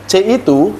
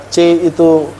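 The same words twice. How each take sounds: No difference in how they are said.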